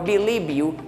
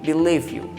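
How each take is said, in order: First: The word believe ends with a b sound. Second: The word believe ends with a v sound. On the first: The speaker calls it wrong. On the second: The speaker calls it right. "es el sonido de la V"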